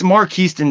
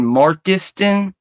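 First: 'Mark Houston' said as two separate names, Mark then Houston; correct pronunciation. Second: 'Markiston' run together as one word, Mark-is-ton; wrong pronunciation. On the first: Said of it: "I can't believe I was saying that wrong again". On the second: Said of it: "I have been saying Markiston". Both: Shown as a demonstration.

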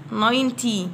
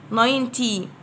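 The two takes are said the same way.

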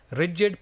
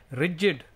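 Both takes have the same delivery.

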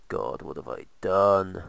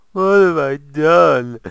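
First: Said in the usual way. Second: Much higher, much louder, slow mock anguish; melodramatic wail. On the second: Gamer mocks his own build error, loud slow wail. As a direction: stretch it out like a tragic hero.

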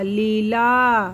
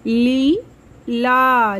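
First: Said in the usual way. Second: Leela with the ली held long and slow; slow stretched long ई. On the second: Shown as a demonstration. (लीला की ली को लंबा खींचना) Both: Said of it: "आवाज़ थोड़ी सी लंबी".

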